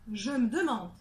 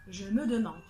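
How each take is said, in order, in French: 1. La voyelle de me n'est pas prononcée. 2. Toutes les voyelles sont prononcées.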